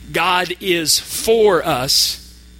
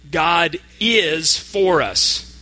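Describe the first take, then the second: First: The stress is on the word for. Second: The stress is on the word is. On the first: God is on our side, not against us. "The word for" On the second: It really is true that God is on our side. "This time, we're going to emphasize the word is"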